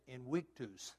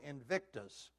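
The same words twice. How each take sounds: First: The word is said without a V sound. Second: The word is said with a V sound. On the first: The speaker calls it right. "There is no V in Latin" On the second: The speaker calls it wrong. "Wrong pronunciation"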